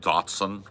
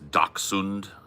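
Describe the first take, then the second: First: The name is said in the familiar American way. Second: The name is given a German-style pronunciation. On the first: The speaker calls it wrong. "I heard it pronounced when I was a kid, Dotson" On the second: The speaker calls it right. "a German fellow told me it's Dachshund"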